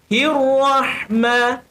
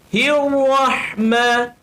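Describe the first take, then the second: The two takes are said the same way.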